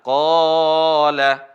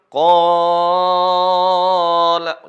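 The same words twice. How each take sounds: First: The long vowel is held for two beats. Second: The long vowel is held for six beats. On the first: "Dua harokat hanya dua ayunan" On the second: "Kalau enam"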